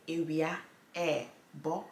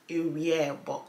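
First: The two words are said as separate words. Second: The two words are joined into one word. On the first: "You either say ewia, okay, ebo" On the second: "you basically just link it in the middle"

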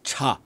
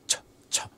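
First: The ch sound is soft, with the mouth open. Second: The ch sound is sharp, with the mouth closed. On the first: The speaker calls it wrong. "It's not cha" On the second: The speaker calls it right. "The CH in Cantonese is a lot sharper. Your mouth is more closed"

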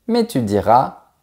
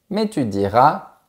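The two takes are said the same way.

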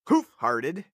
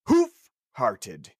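First: The two parts blur together like one word. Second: Each part is pronounced clearly and separately. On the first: "It sounds like you say who farted every single time" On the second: "if you say it very enunciated, like"

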